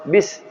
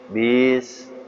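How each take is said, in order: First: The vowel is kept short. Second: The vowel is stretched out long. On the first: The standard length is kept. The speaker calls it right. "seharusnya bis" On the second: Extra length is added beyond the standard. The speaker calls it wrong. "bis dipanjangkan"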